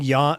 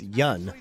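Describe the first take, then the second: First: The vowel is long and open, like 'dawn'. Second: The vowel is short and central, like 'done'. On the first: The speaker calls it wrong. "you don't actually pronounce his name like that" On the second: The speaker calls it right. "You pronounce it yun"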